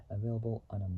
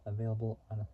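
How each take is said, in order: Both takes have the same delivery.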